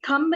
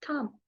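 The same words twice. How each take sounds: First: A b sound is heard at the end. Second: No b sound is heard at the end. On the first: The speaker calls it wrong. "उसको थंब नहीं बोलते" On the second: The speaker calls it right. "बी silent होता है"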